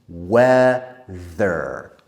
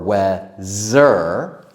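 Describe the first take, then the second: First: The middle consonant is a voiced th sound. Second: The middle consonant is not a th sound. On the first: The speaker calls it right. "We need the, the tongue out" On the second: The speaker calls it wrong. "we don't say weather or weather"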